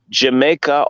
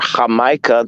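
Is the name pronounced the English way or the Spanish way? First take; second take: English; Spanish. First: The name is said with English pronunciation. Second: The name is said with Spanish pronunciation.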